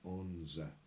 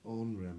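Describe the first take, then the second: First: The middle consonant is a z sound. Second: The middle consonant is an r sound. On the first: "is sometimes pronounced onza" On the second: "this onra meaning a petticoat"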